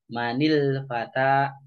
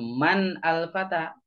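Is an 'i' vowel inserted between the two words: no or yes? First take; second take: yes; no. First: The two words are joined with a linking 'i'. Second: The two words are said without a linking vowel. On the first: The speaker calls it right. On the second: The speaker calls it wrong. "jadi di sini jangan"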